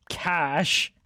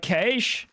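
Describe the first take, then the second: First: Said in the usual way. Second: "cash" with a long ay vowel, like "caysh"; Australian pronunciation. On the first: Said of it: "just an Australian pronunciation of, of cash". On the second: Shown as a demonstration. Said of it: "just an Australian pronunciation of".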